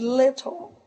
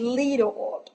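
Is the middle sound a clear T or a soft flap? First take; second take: clear T; soft flap. First: The middle sound is a clear T. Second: The middle sound is a soft flap. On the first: This is the British form. "in British English, you say little. Uh, T" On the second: This is the North American form. "In American English, in North American English, you say little"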